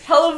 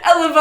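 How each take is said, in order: First: The H at the start is pronounced. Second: The H at the start is silent.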